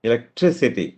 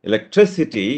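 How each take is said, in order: No difference in how they are said.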